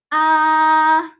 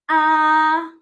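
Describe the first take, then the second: The two takes are said the same way.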